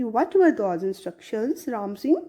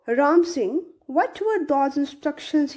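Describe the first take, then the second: First: Asked lovingly. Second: A lightly voiced soft question; asked softly. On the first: Teacher retells the council man's loving question, gently. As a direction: ask again, kindly and slowly. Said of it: "बहुत प्यार से उन्होंने पूछा". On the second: Council man gently asks the robot, softly. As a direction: ask it gently as the kind questioner. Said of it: "he asked softly". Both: A narrator's reading.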